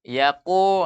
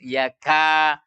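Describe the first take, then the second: First: The vowel is rounded and heavy. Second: The vowel is open and light. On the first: The speaker calls it wrong. "jangan baca yaqudul" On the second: The speaker calls it right. "Harus yaka"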